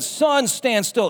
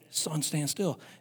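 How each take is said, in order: First: It is spoken aloud in a full voice. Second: It is whispered quietly under the breath.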